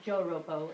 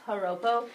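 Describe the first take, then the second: First: It begins with an English J sound. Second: It begins with a breathy H-like sound. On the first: The speaker calls it wrong. "this is not Joropo" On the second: The speaker calls it right. "kind of like an H"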